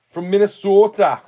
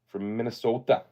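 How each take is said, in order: First: High, loud Minnesota accent on "From Minnesota", long round o in "sota". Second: Said in the usual way. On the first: Shown as a demonstration. Trying the Minnesota accent for the stream, high and loud. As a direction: stretch "Minnesota" the Minnesota way, much higher and louder. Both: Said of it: "Is that how you say it?".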